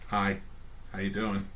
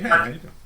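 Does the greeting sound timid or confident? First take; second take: timid; confident. First: The greeting sounds timid and unsure. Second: The greeting sounds confident and self-assured.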